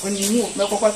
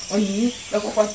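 The two takes are said the same way.

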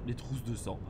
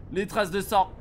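First: "trousses" with an oo vowel, said low and quiet; TROUSSES slip. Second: "traces" with a clear ah vowel; TRACES corrected. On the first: Player fumbling a game prompt, quiet slip on "trousses". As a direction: murmur "trousses" in place of traces, with an oo sound. Slip on a word, then corrected. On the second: Player correcting the misread prompt, clear ah in "traces". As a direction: say "traces" firmly with an ah, correcting the slip. Corrects the slipped word aloud. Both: Real, not acted.

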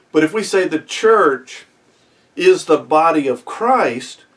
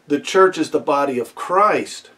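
First: "Christ" slowed and leaned on, a touch louder; stress on Christ. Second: Said in the usual way. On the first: Shown as a demonstration. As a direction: draw out "body of Christ", weight on "Christ". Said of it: "now the emphasis is on Christ". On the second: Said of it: "The first way we would say".

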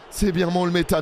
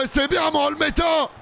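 First: Said in the usual way. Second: High cheering shout; joyful shout. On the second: Real, not acted. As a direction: cheer the save at the top of your voice. Keeper saves a penalty.

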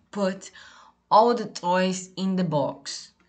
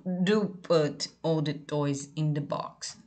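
First: Said in the usual way. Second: "Do" hit firm and slow at the start; stress on DO. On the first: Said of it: "Se for necessário dar mais ênfase". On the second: Shown as a demonstration. Teacher shows students an emphatic order, stressing DO. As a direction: stress "do" before "put", slow and serious. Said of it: "o auxiliar do, no começo da frase, ele dá uma ênfase maior".

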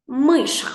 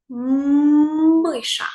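First: Said in the usual way. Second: Long, loud hummed "М" opening "Миша"; stretched first sound. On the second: Shown as a demonstration. Teacher pronouncing the word for analysis, long "М" in "Миша". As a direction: hold the first consonant of "Миша" on a raised note. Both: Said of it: "Вимовляємо слово".

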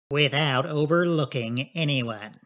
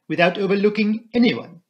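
First: Slow, level, assured reply; measured confirmation. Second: Put-on higher, louder, accented question; Poirot. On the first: Inspector assures Poirot, slow and level. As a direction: confirm it slowly and firmly. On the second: Poirot double-checks with the inspector, insistent French accent. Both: A narrator's reading.

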